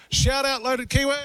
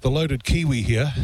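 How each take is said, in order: First: Much higher, bright call-out of the name; excited shout-out. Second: Said in the usual way. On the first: Real, not acted. Radio host gives the café its promised shout-out, high and excited. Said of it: "giving a shout out". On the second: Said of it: "for not giving a shout out".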